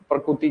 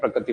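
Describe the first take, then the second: First: The word is said in its careful standard form. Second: The word is said in a loose colloquial form. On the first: The speaker calls it right. "कहते हैं इसको तो वैसे प्रकृति" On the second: The speaker calls it wrong. "थोड़ा अपभ्रंश तरीके से ही पढ़ते हैं इसको"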